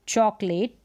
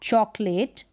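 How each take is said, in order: Both takes have the same delivery.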